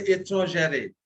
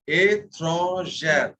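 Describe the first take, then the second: First: ÉTRANGÈRE with an extra "ay" after the R; wrong sounded ending. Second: ÉTRANGÈRE drawn out slowly, open E and final R; slow model of ÉTRANGÈRE ending "zhair"; sounded R ending. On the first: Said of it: "We do not say étrangère". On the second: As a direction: stretch ÉTRANGÈRE syllable by syllable, stopping on the R. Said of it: "The second E is pronounced. It ends in the R". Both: Shown as a demonstration.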